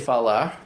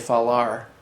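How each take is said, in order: First: The R does not sound like English R. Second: The R sounds like an English R. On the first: This is the speaker's own way of saying it. "like I say falar because that's the right way to say it" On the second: This is how people from São Paulo often say it. "someone from São Paulo will very often say falar"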